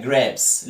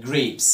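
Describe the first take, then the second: First: "grapes" mispronounced as graps; wrong short a. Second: "grapes" with a long ay vowel; correct long a. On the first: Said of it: "بتنطقها غلط". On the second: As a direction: say "grapes" with the a as its letter name. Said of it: "لا". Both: Shown as a demonstration.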